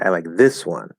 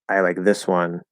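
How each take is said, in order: First: The word 'this' carries strong extra stress. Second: It is said evenly with no special stress. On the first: The other option is definitely not liked. "it really adds extra emphasis and clarity" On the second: It simply states a preference. "that's just a statement"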